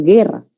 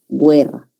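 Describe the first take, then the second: First: Guerra said as gerra, silent u; correct pronunciation. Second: Guerra said as gwerra, u sounded, slowly; wrong pronunciation. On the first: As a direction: guerra with a hard g and no w sound. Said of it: "La palabra es guerra". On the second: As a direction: mispronounce guerra with a w after the g. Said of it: "no es guerra". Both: Shown as a demonstration.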